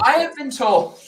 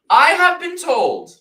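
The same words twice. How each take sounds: First: I have been told, have emphasised; stress on HAVE. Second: I have been told, leaning on have; stress on HAVE. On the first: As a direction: HAVE stressed with a falling tune. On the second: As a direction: HAVE punched high and loud, slowly. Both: Shown as a demonstration. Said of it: "let's have some real talk here".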